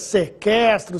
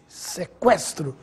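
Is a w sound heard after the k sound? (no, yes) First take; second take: no; yes. First: The u is silent, with no w sound. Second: The u is voiced as a w sound. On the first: The speaker calls it wrong. "nada de falar" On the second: The speaker calls it right. "você ouviu o som da letra U"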